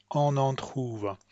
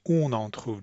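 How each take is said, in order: First: "on en trouve" with English vowels, slow; the "on en" said the wrong English way, slowly; English-style on en trouve. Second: "on en trouve" with nasal French vowels and throat R; the correct French "on en trouve". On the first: Teacher showing the English mistake on "on en trouve". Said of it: "an English speaker would probably say". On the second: Teacher modelling the right French "on en trouve". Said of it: "when it's really". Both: Shown as a demonstration.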